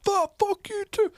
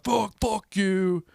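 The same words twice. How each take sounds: First: Very high, loud screech back; mock shrieked retort, drawn out; imitated yelling girl. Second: High, loud, drawn-out curse; mock drunken scream; retold screaming. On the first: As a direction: mimic a girl screaming the insult back. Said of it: "She's like". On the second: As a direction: re-enact yelling an insult at someone. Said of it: "screaming at a, a lady".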